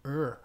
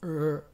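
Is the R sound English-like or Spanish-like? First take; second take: English-like; English-like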